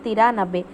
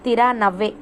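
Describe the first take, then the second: First: The middle consonant is a b sound. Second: The middle consonant is a v sound. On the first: This is how northern speakers say it. "వాళ్ళు నబ్బే అంటుంటారు" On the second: This is how we would say it. "తిరానవ్వే మనం చెప్పుకోవాలంటే"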